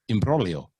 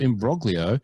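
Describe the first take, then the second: First: The G sound is left silent. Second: The G sound is clearly pronounced. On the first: "the G before another consonant is usually silent" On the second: "the G before another consonant is usually silent"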